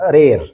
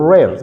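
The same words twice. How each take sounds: First: The r is tapped with the tongue touching. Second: The r is made without the tongue touching. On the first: The speaker calls it wrong. "የአማርኛው ድምጽ ከመጣብኝ rare ብዬ ነው ማለት ነው። rare ምክንያቱም just my tongue touches the alveolar region" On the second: The speaker calls it right. "but without touching rare rare rare ብላችሁ ነው የምታነቡት"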